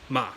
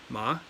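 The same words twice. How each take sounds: First: The pitch falls sharply. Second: The pitch rises like a question. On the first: "fourth tone" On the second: "The second tone is a rising tone"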